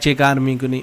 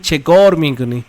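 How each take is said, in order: First: The first word has an open 'a' vowel. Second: The first word has a rounded 'o' vowel. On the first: The speaker calls it wrong. "ऐसे नहीं बोलना है" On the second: The speaker calls it right. "आप बोलिए चेकौर मी कुनी"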